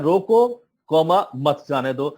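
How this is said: There is a break after 'roko'.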